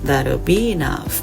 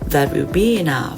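First: 'That' and 'will' merge into one contracted word. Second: 'That' and 'will' are said as two full words. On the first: The speaker calls it right. "พวกเขาจะพูดว่า" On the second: The speaker calls it wrong. "พวกเขาจะไม่พูดว่า"

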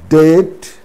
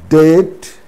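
First: The B sound is silent before the T. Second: The B sound is silent before the T.

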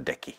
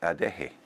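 First: The consonant before the final vowel is a hard k. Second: The consonant before the final vowel is a breathy h. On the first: The speaker calls it wrong. "which with a K" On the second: The speaker calls it right. "it's actually a H"

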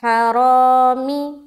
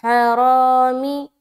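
First: The final vowel is a high 'ee' sound. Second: The final vowel is a high 'ee' sound.

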